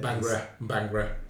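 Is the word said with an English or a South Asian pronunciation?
English. It is said with an English pronunciation. "for my benefit"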